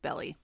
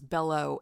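First: The word ends with an 'ee' vowel. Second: The word ends with an 'oh' vowel. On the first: The speaker calls it right. "It's Belly" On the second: The speaker calls it wrong. "I thought it was Bello at the end"

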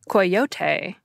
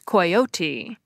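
First: The word is given a Spanish-style pronunciation. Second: The word is given a British-style pronunciation. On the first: "might pronounce it the Spanish way" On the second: "the British pronunciation is coyote"

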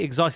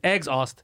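First: The word starts without an 'eggs' sound. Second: The word starts with a clear 'eggs' sound. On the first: "He didn't say exhaust" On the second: "He said eggs-aust, like as if it's the aust of eggs"

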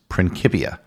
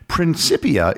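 First: The c is a hard k sound. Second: The c is a soft s sound. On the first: This is how the original Latin would sound. "the proper pronunciation ... In Latin, the letter C is always pronounced as a hard C, like the letter K" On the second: This is the common English adaptation. "is an anglicized version"

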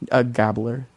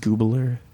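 First: The first syllable has a short 'o' vowel. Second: The first syllable has a long 'oo' vowel. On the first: The speaker calls it wrong. "I'm joking" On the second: The speaker calls it right. "It's Goobler"

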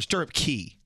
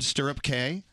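First: The last word sounds like the word key. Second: The last word sounds like the letter K. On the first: "but they usually say key" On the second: "it's spelled C-A-Y"

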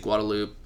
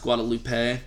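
First: It is said the local Austin way. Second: It is said the standard way.

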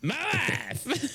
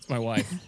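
First: It is said in an imitated Borat voice. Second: It is said in the speaker's ordinary voice.

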